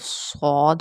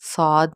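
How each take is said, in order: First: The letter is said heavy, with a full mouth. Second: The letter is said thin, with a light vowel. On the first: The speaker calls it right. "सौद होता है" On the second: The speaker calls it wrong. "साद नहीं पढ़ना"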